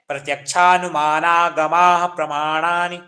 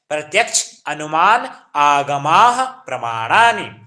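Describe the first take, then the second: First: The words are run together as one compound. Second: The words are said separately, split apart. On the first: This is the proper Sanskrit reading. "Sanskrit में पढ़ना है तो किस प्रकार पढ़ना है" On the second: This is an easier reading for those who cannot read it joined. "किस संधि विच्छेद करके किस प्रकार पढ़ना है"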